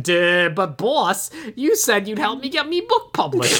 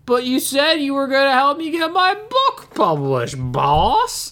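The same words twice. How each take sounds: First: Botched henchman voice sliding toward Irish or Cockney; dumb henchman. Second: High, loopy Southern drawl dropping on "boss"; botched dumb-henchman voice turned Southern; accidentally Southern henchman. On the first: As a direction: play a dim lackey, accidentally Popeye-like. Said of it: "more like the dumb henchman". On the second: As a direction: whine it like a Southern lackey. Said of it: "that, that turned Southern". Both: Retold or imitated.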